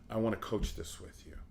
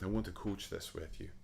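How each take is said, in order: First: It is said in the speaker's ordinary accent. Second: It is said in a gentle Scottish accent.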